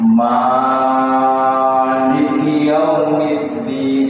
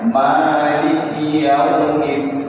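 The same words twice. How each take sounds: First: The vowel after the first M is held too long. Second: The vowel after the first M is held briefly. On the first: The speaker calls it wrong. "salah, kepanjangan maknya" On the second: The speaker calls it right. "yang dibaca panjang hanya dua harokat saja"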